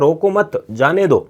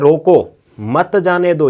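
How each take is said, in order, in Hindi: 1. 'mat' के ठीक बाद विराम है। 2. 'roko' के ठीक बाद विराम है। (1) "यानी छूट है उसको" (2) "यानी जाना नहीं, वहीं रुकना है"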